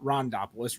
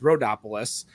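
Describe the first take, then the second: First: An 'n' sound comes before the 'd'. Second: No 'n' sound comes before the 'd'. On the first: The speaker calls it wrong. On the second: The speaker calls it right.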